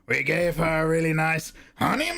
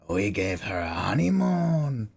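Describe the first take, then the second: First: It is said with playfully distorted words. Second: It is said in a sleazy, disgusting voice.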